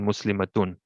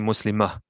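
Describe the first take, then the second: First: The word ends in a full 'atun' sound. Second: The word ends in a short 'ah' sound. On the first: The word is said fully, with its ending. "when we're saying the whole thing fully" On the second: The word is said with a stop at the end. "if you were to put a stop, you pronounce it as a ha"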